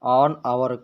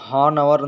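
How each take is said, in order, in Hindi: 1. इस शब्द की शुरुआत स्वर की आवाज़ से होती है। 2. इस शब्द की शुरुआत "h" की आवाज़ से होती है। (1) "ऑन आवर पढ़ा जाएगा" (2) "इसको हॉन आवर नहीं पढ़ा जाएगा"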